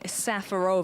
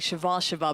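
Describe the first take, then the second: First: The name begins with a plain s sound. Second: The name begins with a sh sound. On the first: The speaker calls it wrong. "I think we all say that wrong" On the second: The speaker calls it right. "It's actually Shivashova"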